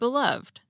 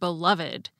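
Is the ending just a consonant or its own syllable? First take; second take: consonant; own syllable. First: The ed ending is only a final consonant. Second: The ed ending is its own extra syllable. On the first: "pronounced like most English words ending in ed" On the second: "had the same unusual pronunciation of the suffix ed"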